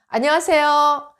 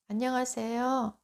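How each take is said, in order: First: The greeting is spoken loudly and confidently. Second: The greeting is spoken quietly and weakly. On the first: The speaker calls it right. "이게 훨씬 더 듣기 좋죠. 그리고 당당함이 묻어나옵니다" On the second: The speaker calls it wrong. "이거보다"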